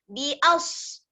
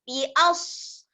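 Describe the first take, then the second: The two takes are said the same way.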